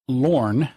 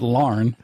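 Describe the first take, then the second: First: The vowel is a rounded 'or' sound. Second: The vowel is an open 'ah' sound. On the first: The speaker calls it right. "my apologies to Lorne" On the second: The speaker calls it wrong. "It's not Larn, ... we have like a thing with our A's"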